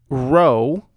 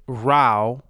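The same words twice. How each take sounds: First: ROW with a long O, as in rowing a boat; heteronym row. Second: ROW rhyming with "cow", as in a quarrel; heteronym row. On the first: Host giving an example of a heteronym, row rhyming with go. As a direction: say "row" to rhyme with "go". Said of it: "different pronunciation and meaning". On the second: Host giving the argument sense, row rhyming with cow. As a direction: say "row" with an OW sound. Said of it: "another word for argument". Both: Shown as a demonstration.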